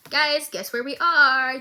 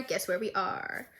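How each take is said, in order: First: Excited teaser. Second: Hushed teaser. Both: Real, not acted.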